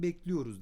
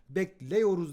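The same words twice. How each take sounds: First: The vowel before -yor is a closed i. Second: The vowel before -yor is an open e. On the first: The speaker calls it right. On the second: The speaker calls it wrong.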